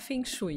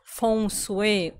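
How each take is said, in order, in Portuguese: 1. É pronunciado do jeito do português brasileiro. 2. É pronunciado mais próximo do mandarim original. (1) "Aqui no Brasil, eu prefiro falar Feng Shui" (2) "mais sofisticado, é que o original ... que tem a ver com o mandarim"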